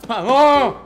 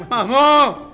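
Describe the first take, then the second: The two takes are said the same way.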